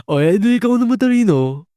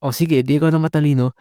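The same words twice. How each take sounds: First: High, fast sarcastic sneer; mock-impressed sarcasm pitched way up; mocking comeback. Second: A quick, light sarcastic jab; mild sarcastic comeback, fast; mocking comeback. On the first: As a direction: toss it off like a sore loser's jab. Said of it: "ang pang-comeback na lang na ibibigay is". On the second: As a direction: toss it off fast, half-mocking. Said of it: "pinagmumukha mong".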